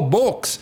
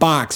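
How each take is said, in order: First: The vowel sounds like 'oh', Russian style. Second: The vowel sounds like 'ah', Midwestern style.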